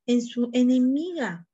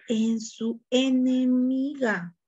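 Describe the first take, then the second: First: Said in the usual way. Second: Slow, weighty stress on "enemiga"; slow emphasis. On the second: Shown as a demonstration. Teacher stressing the key word to her class, slow and weighty. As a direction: lean on "En su enemiga", stretching "enemiga" slowly.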